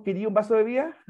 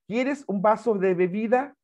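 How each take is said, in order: First: "¿Quería un vaso de bebida?" with the final s dropped and "bebida" clipped to "bia"; sloppy casual form. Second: Slow "¿Quieres un vaso de bebida?" with every sound spoken clearly; careful correct form. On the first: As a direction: say it loosely, like quick street talk. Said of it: "ese sería coloquial". ("¿Quería un vaso de bebida?" relajado, sin la s y con "bebida" recortada) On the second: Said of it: "No, "¿Quería...?". ("¿Quieres un vaso de bebida?" pronunciado lento y con cuidado) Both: Shown as a demonstration.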